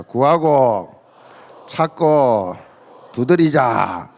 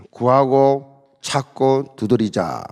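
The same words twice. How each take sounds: First: Chanted, lead the room word by word, 구하고 … 찾고 … 두드리자; call-and-response chant. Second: 구하고 찾고 두드리자 slowly, each verb weighted and spaced; slow emphatic slogan. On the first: Chanted, pastor leading the congregation in a call-and-response, word by word. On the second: Pastor giving the slogan for the congregation to repeat, slow and weighty. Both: Shown as a demonstration. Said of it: "다 같이 따라합시다".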